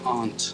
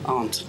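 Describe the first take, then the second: First: It is said halfway between two accents. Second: The same.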